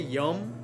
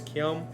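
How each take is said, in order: First: The word is clipped, losing its opening consonant cluster. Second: The word is said in full with its opening cluster. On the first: This is casual everyday speech. "which is a very cut way" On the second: This is the formal, proper form. "the proper way is kyom"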